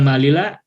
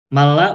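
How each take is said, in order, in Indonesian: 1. Konsonan yang diulang dipisahkan oleh sebuah vokal di antaranya. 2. Konsonan yang diulang ditahan bersama sebagai satu konsonan rangkap.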